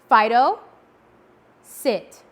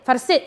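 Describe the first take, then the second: First: There is a pause before the command. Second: The command follows the name with no pause.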